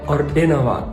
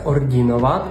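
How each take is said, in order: First: The 'di' is said hard, like 'dy'. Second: The 'di' is said soft, like 'dyi'. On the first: The speaker calls it right. "але «ординуват»" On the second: The speaker calls it wrong. "не вимовляється «ордінуват»"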